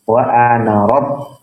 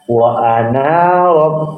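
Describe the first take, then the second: First: The final vowel of ana is kept short. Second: The final vowel of ana is drawn out long. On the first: The speaker calls it right. "ketika wasol maka ana itu dibaca pendek" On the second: The speaker calls it wrong. "tidak boleh dibaca"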